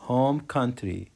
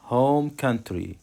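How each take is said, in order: Both takes have the same delivery.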